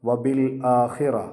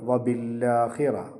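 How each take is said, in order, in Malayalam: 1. സ്വരത്തിന് മുമ്പുള്ള ഹംസ വ്യക്തമായി ഉച്ചരിക്കപ്പെടുന്നു. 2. ഹംസ ഒഴിവാക്കപ്പെടുന്നു, l ഇരട്ടിപ്പിക്കപ്പെടുന്നു. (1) "ഉദാഹരണം" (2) "ഹംസ നമ്മൾ ഉച്ചരിച്ചില്ലെങ്കിൽ"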